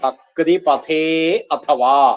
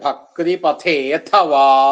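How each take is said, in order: First: Pathe and athava are said as separate words. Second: The initial a drops, giving one word, pathethava.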